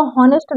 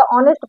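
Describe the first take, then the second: First: हॉनेस्ट with a sounded h at the start; हॉनेस्ट with an audible h, the wrong way; wrong pronunciation. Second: ऑनेस्ट with a silent h, starting on the vowel; ऑनेस्ट with no h sound, the right way; correct pronunciation. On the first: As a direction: say हॉनेस्ट with the h pronounced, as the mistake. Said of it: "इसको हॉनेस्ट नहीं पढ़ा जाता". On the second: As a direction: say ऑनेस्ट opening straight on the vowel. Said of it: "ऑनेस्ट पढ़ा जाता है". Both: Shown as a demonstration.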